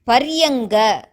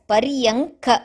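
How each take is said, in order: First: The consonant after the n is a voiced g. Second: The consonant after the n is an unvoiced k. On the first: The speaker calls it wrong. "it is not to be pronounced as Paryanga" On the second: The speaker calls it right. "but only as Paryanka, the first ka"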